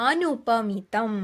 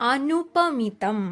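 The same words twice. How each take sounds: No difference in how they are said.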